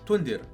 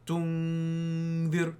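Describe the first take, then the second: First: It is short, with a clear n sound. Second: It is stretched, with the n hidden nasally. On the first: "If you said it normally" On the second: "How it's all like extended, and also the noon is like hidden"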